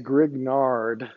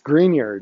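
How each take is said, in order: First: The name is said with a hard 'g-n', like 'grig-nard'. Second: The name is said like 'green yard'. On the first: The speaker calls it wrong. "don't say Grignard. that's not how you pronounce it in French" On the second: The speaker calls it right. "green yard"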